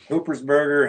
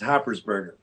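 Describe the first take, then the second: First: The first syllable sounds like 'hoop'. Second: The first syllable sounds like 'hop'. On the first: The speaker calls it wrong. "my name gets butchered all the time" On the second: The speaker calls it right. "technically, it's Hoppersberger"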